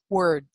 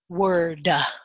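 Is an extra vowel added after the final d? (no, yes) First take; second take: no; yes. First: The word ends cleanly on the d sound. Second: An extra 'uh' vowel follows the final d. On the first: The speaker calls it right. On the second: The speaker calls it wrong.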